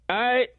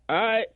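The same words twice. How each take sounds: Both takes have the same delivery.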